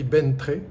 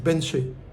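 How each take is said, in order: First: The middle consonants are said as 'tr'. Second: The middle consonants are said as 'ch'. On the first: Locals did not understand it. The speaker calls it wrong. "ça s'écrit Bentré. Quand j'ai dit ça, personne ne me comprenait" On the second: This is how locals say it. The speaker calls it right. "en fait, ça se dit Benché. Le T R, ça fait che"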